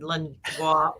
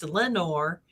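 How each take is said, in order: First: The name ends in a French-style 'nwar' sound. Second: The name ends in a plain English 'nor' sound. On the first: An outsider is guessing at the name. The speaker calls it wrong. "trying to pronounce it like the French" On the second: This is how the locals say it. The speaker calls it right. "it's pronounced Lenore"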